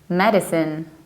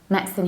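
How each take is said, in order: First: The word is said with three syllables. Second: The word is said with two syllables. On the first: "Americans will most frequently say medicine" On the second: "in the British accent, we mostly say medicine. ... you have only two syllables"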